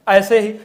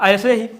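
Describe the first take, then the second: Both takes have the same delivery.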